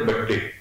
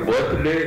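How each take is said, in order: First: It is said as badde with a doubled d. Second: It is said as full birthday with th sound. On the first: "ते बड्डे" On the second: "मग ते बर्थडे"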